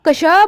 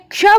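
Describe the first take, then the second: First: The k sound is pronounced fully with a vowel. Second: The k sound is pronounced half, without a vowel. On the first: The speaker calls it wrong. "क पूरा हो गया" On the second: The speaker calls it right. "क आधा हो गया, श पूरा हो गया"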